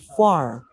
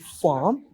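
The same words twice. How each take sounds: First: American accent, with the r sound. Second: British accent, with no r sound. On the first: "in American accent it would be farm" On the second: "British accent would be farm"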